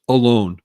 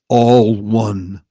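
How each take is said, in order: First: It is said as one joined word. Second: It is split into two separate words. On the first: Being by oneself. The speaker calls it wrong. "they think the word is pronounced alone. It's not" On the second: Being part of a united whole. The speaker calls it right. "It's really pronounced properly all one"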